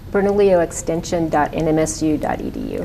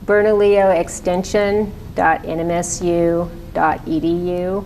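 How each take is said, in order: First: It is said at a normal, quicker pace. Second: It is said more slowly.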